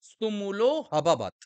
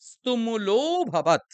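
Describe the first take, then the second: First: An h sound is inserted before the last word. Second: The o vowel is lengthened, with no h. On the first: The speaker calls it wrong. "অনেকেই আপনারা হ উচ্চারণ করেন" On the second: The speaker calls it right. "তার পূর্বের বর্ণটিকে আমরা একটু দীর্ঘ টানবো"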